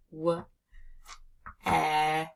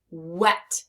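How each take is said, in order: First: W and e said apart, with a long pause; sounding out. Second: Said in the usual way. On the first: Shown as a demonstration. Teacher building wet for learners, sounded out sound by sound. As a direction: isolate W, then e, as separate sounds. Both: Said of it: "I hear that E sound".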